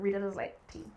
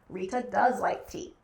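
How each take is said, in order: First: The word 'does' carries no special emphasis. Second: The word 'does' carries strong emphasis. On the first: It is a plain statement of a habit. "that is how we conjugate that verb" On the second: The speaker insists that she really likes tea. "we use does as a helping verb emphatically"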